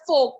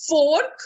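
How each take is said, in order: First: "fork" as fohk; silent R. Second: "fork" with a sounded R; wrong pronunciation. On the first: Teacher using it in a sentence, fork with silent R. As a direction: drop the R from fork. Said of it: "The R is silent". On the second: Teacher showing what not to say, fork with a clear R. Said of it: "it is not". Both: Shown as a demonstration.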